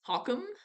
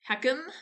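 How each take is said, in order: First: The first syllable sounds like hawk. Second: The first syllable sounds like hack. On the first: "Is it hack or hawk?" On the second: "Is it hack or hawk?"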